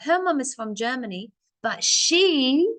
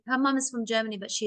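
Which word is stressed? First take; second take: she; none. First: The word she is pushed with strong stress. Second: Every word is said flat with equal stress. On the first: The speaker calls it right. "you see how my voice really pushed to show you that I want to talk about her" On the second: The speaker calls it wrong. "Do you hear how my voice just sounded the same?"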